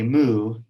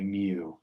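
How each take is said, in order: First: It sounds like a cow's moo. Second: It does not sound like a cow's moo. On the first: The speaker calls it wrong. "Don't say moo" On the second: The speaker calls it right. "say mu"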